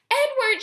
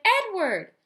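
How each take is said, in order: First: Loud high call of a name. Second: Loud, high calling. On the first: Girl searching for her rabbit: loud calling. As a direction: call him from across the house. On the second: Girl searching room to room: calling out. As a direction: shout his name searching. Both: A narrator's reading. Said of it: "she shouted".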